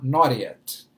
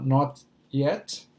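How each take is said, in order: First: American accent with the T sounding like R. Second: British accent with a clearly pronounced T.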